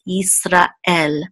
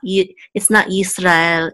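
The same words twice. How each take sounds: First: A glottal stop separates 'ra' and 'el'. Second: The syllables 'ra' and 'el' run together. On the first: The speaker calls it right. "you want to make sure that there's a separation between ra and el" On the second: The speaker calls it wrong. "It's not Yisrael"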